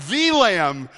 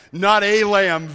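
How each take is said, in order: First: The stressed and lengthened as thee. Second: Said in the usual way. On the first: Shown as a demonstration. Preacher correcting a lamb to the Lamb, stress on the. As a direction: lean hard on the in the Lamb.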